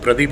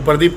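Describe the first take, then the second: First: The r sound is clearly pronounced. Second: The r sound is swallowed and barely heard. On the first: The speaker calls it right. "प्रदीप है" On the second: The speaker calls it wrong. "जैसे भी र को लोग खा जाते हैं"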